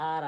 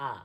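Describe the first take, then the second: First: Said in the usual way. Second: "আ" as open ah, no r sound; R-less R. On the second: Shown as a demonstration. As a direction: drop the final r, just "আ". ("আ", শেষে র নেই) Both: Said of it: "আরটাকে আজ থেকে কি পড়বো?".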